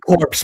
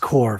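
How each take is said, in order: First: The word ends with a 'ps' sound. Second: The word ends with an 'r' sound. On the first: The speaker calls it wrong. "I always pronounce it corpse" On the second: The speaker calls it right. "but it's core"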